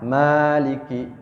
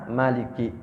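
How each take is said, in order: First: The vowel after the m is held long. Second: The vowel after the m is kept short. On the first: "Kalau di surat Al-Fatihah mimnya panjang" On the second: "Kalau di surat An-Nas Maliki, pendek"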